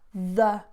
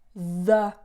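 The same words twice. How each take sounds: First: The vowel is a short, weak schwa. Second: The vowel is a short, weak schwa.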